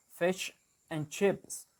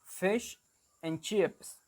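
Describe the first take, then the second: First: Slow New Zealand 'fish and chips', shifted i in FISH; New Zealand accent. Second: Fish and chips said the Australian way, clear short i in FISH; Australian accent. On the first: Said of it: "in New Zealand, they will say, like". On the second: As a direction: demonstrate Australian 'fish and chips', word by word. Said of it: "In Australian, they will say something like". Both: Shown as a demonstration.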